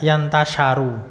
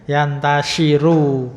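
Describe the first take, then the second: First: The vowel after 'sh' is 'a'. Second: The vowel after 'sh' is 'i'. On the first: The speaker calls it wrong. "mungkin tidak bacanya wayastan syaru" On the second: The speaker calls it right. "Berarti sinya harusnya kasrah itu"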